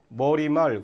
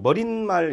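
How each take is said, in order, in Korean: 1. 두 부분은 더해진 소리 없이 그냥 붙습니다. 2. 추가된 n 소리가 두 부분을 이어 줍니다. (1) "그냥 머리말 그냥 되죠" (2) "이렇게 발음을 일부러 하면"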